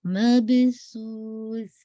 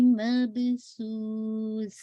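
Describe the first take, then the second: First: مبسوس with the ب bounced; slow recitation demo; qalqalah on ba. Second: مبسوس with clear whistling س; slow recitation demo; whistled seen. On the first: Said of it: "با پہ قلقلہ". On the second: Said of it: "whistling sound". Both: Shown as a demonstration.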